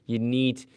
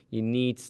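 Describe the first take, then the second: No difference in how they are said.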